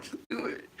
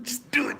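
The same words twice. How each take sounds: First: Whispered plea. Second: High, loud cry of just do it; desperate shout. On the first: Patient whispers to doctors to get it over with. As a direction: whisper just do it, no voice. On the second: Patient yells at doctors to set her finger, high and loud. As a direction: force it out, bracing for pain. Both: Retold or imitated. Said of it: "I was just like".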